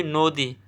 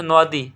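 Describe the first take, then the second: First: নদী said as "no-di" with a round o; spoken pronunciation. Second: নদী read by its spelling, open "naw-di"; as written. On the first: Teacher showing how we say it, spoken pronunciation. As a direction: say নদী as "nodi", rounded first vowel. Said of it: "আমরা বলি নদী". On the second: Teacher showing what is written, spelling pronunciation. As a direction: say নদী with an open first vowel, "nawdi". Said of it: "এটা আছে নদী". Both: Shown as a demonstration.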